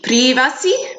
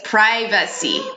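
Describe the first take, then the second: First: The first vowel is an 'ee' sound. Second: The first vowel is not an 'ee' sound. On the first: The speaker calls it wrong. "that Spanish or Catalan I sound, that E" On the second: The speaker calls it right. "So it's privacy"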